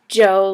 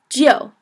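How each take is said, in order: First: It is said like English Joe, plain 'oh'. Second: It is said as 'gee' gliding into 'oh'. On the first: The speaker calls it wrong. "it's not like Joe" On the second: The speaker calls it right. "I would say it's more like G and O"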